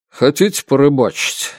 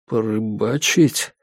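First: ХОТИТЕ leaned on, falling at the end; «Хотите» carries the question, then the tune drops; casual offer as question. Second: Slow, tentative «Порыбачить» with rising end; «Порыбачить» drawn out into a rising question; puzzled echo question. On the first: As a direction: offer it briskly, stressing «Хотите». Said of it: "спросил Норм-старший". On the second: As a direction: echo «Порыбачить» slowly, lifting the last syllable. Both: A narrator's reading.

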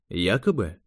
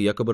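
First: "якобы" echoed alone as a query. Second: Said in the usual way. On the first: A narrator's reading. Interrogator echoes the agent's word "якобы", querying it. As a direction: pick up "якобы" and question it.

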